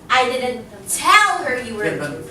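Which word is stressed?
tell. The word tell carries the stress. It was conveyed some other way. "I could have, you know, shouted it out or told somebody else"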